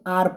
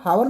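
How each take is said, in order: First: The word begins with a vowel sound. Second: The word begins with an h sound. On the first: The speaker calls it right. "आर पढ़ते हैं" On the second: The speaker calls it wrong. "हावर नहीं पढ़ते"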